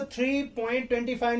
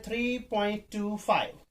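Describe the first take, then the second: First: "ट्वेंटी फाइव" read as one two-digit number; demonstrating the wrong "ट्वेंटी फाइव" reading. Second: "टू फाइव" as two separate digits; teacher modelling "टू फाइव" as single digits; correct number reading. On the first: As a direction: join the decimals into "ट्वेंटी फाइव", as a mistake to avoid. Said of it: "नहीं पढ़ना है". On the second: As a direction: read "टू", then "फाइव", digit by digit after the point. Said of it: "इसको पढ़ना है". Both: Shown as a demonstration.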